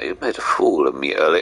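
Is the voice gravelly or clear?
clear. The voice is purer and less gravelly.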